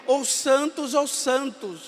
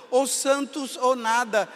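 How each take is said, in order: First: "ou santos ou santos" said slowly, each "santos" leaned on, falling at the end; slow emphatic repeat. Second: Said in the usual way. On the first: Shown as a demonstration. Priest pushing the motto to its extreme, slow and stressed. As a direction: spell out "ou santos ou santos" deliberately, weighting both "santos". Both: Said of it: "E depois ele foi ao extremo".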